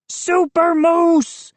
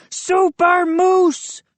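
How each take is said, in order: First: Slow, high hammed-up hero bellow. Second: Slow, high superhero yell. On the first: Moose brags to his friends, slow hero bellow. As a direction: stretch out Super Moose like a superhero. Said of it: "he bellowed". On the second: Moose jumping on the table, slow hero yell. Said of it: "he yelled". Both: A narrator's reading.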